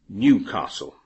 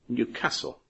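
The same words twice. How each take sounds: First: Pronounced the way many English people say it. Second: Pronounced the way the city's residents say it. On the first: "you will hear many English people pronounce the name" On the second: "the people who live there say"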